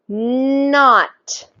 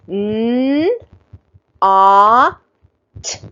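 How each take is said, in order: First: The sounds are blended quickly into one word. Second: The three sounds are said slowly and separately. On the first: "a little bit faster" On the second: "we sound out things slowly at first"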